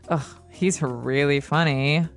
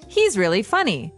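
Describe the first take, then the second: First: It is said sarcastically, meaning he is not. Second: It is said sincerely, meaning he is funny.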